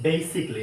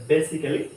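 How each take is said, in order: First: "basically" as BAY-sik-lee; "basically" with -klee and no middle vowel; correct pronunciation. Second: "basically" as beh-si-keh-lee; "basically" with short e and full -kelly; mistaken pronunciation. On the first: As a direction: say "basically" with long ei, three syllables. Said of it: "যেটা হবে". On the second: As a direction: say "basically" in four syllables. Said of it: "হবে না". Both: Shown as a demonstration.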